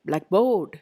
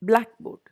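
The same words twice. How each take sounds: First: The stress is on the second part. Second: The stress is on the first part. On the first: The speaker calls it wrong. "Don't say blackboard" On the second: The speaker calls it right. "always give importance to the first part"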